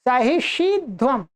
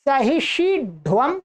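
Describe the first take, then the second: First: सहिष्यध्वम with a plain dental ध; सहिष्यध्वम with ध not turned into ढ; dental ध form. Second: सहिष्यध्वम with the ध said as retroflex ढ (सहिष्यढ्वम); सहिष्यध्वम with tongue curled back on ढ; retroflex ढ form. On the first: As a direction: say सहिष्यध्वम keeping the dental ध, tongue on the teeth. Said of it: "एक बार ध ही रहेगा". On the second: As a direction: say सहिष्यध्वम with a hard retroflex ढ before व. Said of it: "एक बार ध को ढ हो जाएगा". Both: Shown as a demonstration.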